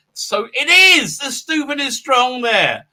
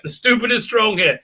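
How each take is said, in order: First: "it is" high, slow and stretched; emphatic confirmation. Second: Said in the usual way. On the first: Real, not acted. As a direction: draw out "stupid is strong" higher, emphatically.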